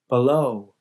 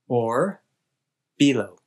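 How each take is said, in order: First: The stress falls on the second syllable. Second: The stress falls on the first syllable. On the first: "Americans generally place the stress later in the word" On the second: "a speaker of Hindi or Punjabi might put stress on the first part of a word"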